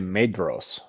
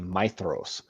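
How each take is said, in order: First: The middle consonant is a 'd' sound. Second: The middle consonant is a 'th' sound. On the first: The speaker calls it wrong. "a lot of people say Maedhros" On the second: The speaker calls it right. "it's actually Maethros. The D H is actually a T H"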